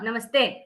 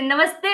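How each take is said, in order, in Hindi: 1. यह व्यंग्य भरे, ताना मारने वाले लहजे में बोला गया है। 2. यह गर्मजोशी भरे, खुश लहजे में बोला गया है। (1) "मेरी टोन जो थी एकदम सरकास्टिक थी" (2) "वही खुशी नमस्ते बेटा"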